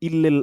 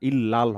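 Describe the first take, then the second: First: The second vowel sounds like 'e'. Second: The second vowel sounds like 'a'. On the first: The speaker calls it wrong. "ইল্লেল হবে না" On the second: The speaker calls it right. "ইল্লাল হবে"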